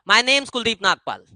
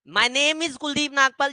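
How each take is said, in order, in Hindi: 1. 'Name is' को 'name's' में संक्षिप्त किया जाता है। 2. 'Name is' दो पूरे शब्दों की तरह बोला जाता है। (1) "इसको अपोस्ट्रोफे एस के साथ बोलो" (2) "ये थोड़ा सा ना वो वही चौथी पांचवी क्लास वाला हो जाता है"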